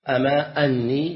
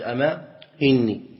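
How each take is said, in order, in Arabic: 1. تُنطق الهمزة بحركة a. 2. تُنطق الهمزة بحركة i.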